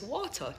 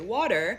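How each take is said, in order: First: It is said in a Jamaican accent. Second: It is said in an American accent.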